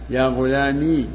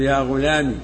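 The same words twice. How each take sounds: First: The word ends in a long i vowel. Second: The word ends in a short i vowel. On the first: "وإثباتها" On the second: "بحذف الياء"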